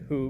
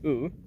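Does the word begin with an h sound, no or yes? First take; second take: yes; no. First: The word begins with an h sound. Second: The word begins with a plain vowel. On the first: The speaker calls it wrong. "I do say who" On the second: The speaker calls it right. "but it's actually ooh, is, is right"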